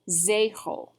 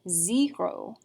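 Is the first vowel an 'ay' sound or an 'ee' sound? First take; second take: ay; ee. First: The first vowel is a long 'ay' sound. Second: The first vowel is not a long 'ay' sound. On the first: The speaker calls it right. "an agu makes a long A sound" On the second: The speaker calls it wrong. "instead of saying zero"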